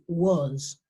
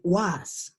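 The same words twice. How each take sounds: First: The vowel sounds similar to o. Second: The vowel does not sound like o. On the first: The speaker calls it right. "suena con una algo similar al, al sonido de la O" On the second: The speaker calls it wrong. "I don't say was"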